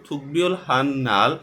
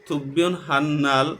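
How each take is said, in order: Both takes have the same delivery.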